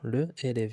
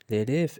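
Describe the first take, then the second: First: The article is said as a separate syllable. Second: The article blends into the noun as one. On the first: The speaker calls it wrong. "ما تنقولش le élève" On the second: The speaker calls it right. "تنقول l'élève"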